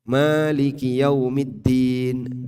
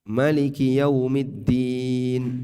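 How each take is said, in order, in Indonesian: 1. Vokal pertama pada Maliki Yaumiddin panjang. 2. Vokal pertama pada Maliki Yaumiddin pendek. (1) "Bisa dibaca pan? panjang" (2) "dibaca pendek"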